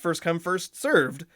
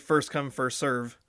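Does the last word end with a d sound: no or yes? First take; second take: yes; no. First: The last word ends with a d sound. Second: The last word ends without a d sound. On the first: The speaker calls it right. "but it's first come, first served" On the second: The speaker calls it wrong. "more than half of the people say first come, first serve. And they just say it like that"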